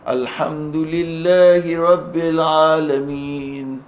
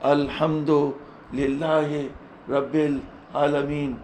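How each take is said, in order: First: It is recited melodically, with the voice modulated. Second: It is read flatly, like ordinary prose. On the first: It is recited with a beautiful voice, as scripture deserves. The speaker calls it right. "बल्कि सही पे ... ऐसे पढ़ूँगा" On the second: It is read like the text of an ordinary book. The speaker calls it wrong. "तो मैं ऐसे नहीं पढ़ूँगा"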